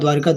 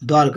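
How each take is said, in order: First: An extra 'i' vowel follows 'Dwar'. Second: No vowel comes between 'Dwar' and 'ka'. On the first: The speaker calls it wrong. "द्वारिका होता ही नहीं" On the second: The speaker calls it right. "ये सही है आपका द्वारका"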